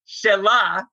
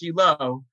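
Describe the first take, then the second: First: The word ends with an 'a' vowel. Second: The word ends with an 'o' vowel. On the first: It means hers. "You can also pronounce it another way" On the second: It names the place. "it is pronounced Shiloh"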